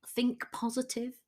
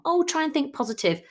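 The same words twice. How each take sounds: First: "think positive" said softly, trailing down, half to oneself; mild advice. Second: "Oh, try and think positive" higher, louder and quick, mock-bright; chirpy platitude. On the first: Retold or imitated. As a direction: offer "think positive" quietly as a weary tip. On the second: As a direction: toss off "think positive" like a breezy cliché. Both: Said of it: "That's one that I hear a lot".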